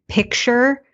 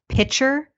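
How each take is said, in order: First: A k sound comes before the ch sound. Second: No k sound comes before the ch sound. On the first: "like a picture on the wall" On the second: "as pitcher, like a pitcher of water"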